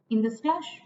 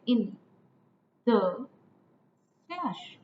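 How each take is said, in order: First: Said in the usual way. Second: "In", "the", "slush" with long pauses between; syllable by syllable. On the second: Shown as a demonstration. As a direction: count out "In the slush" one syllable at a time. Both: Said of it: "again three syllables here".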